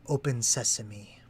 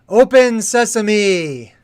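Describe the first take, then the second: First: It is said at a normal, softer volume. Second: It is said loudly.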